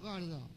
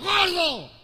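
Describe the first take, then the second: First: It is said softly and affectionately. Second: It is said angrily and loudly.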